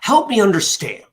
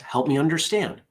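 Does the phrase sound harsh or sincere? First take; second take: harsh; sincere. First: It sounds harsh and challenging. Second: It sounds sincere and genuinely curious. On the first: A confrontational challenge to the other view. "one does seem kind of harsh" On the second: A genuine request for help in understanding. "I meant it as"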